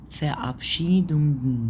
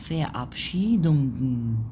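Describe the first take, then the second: No difference in how they are said.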